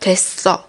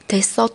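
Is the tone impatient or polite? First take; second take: impatient; polite. First: It sounds slightly impatient and annoyed. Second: It sounds like a polite, gentle refusal.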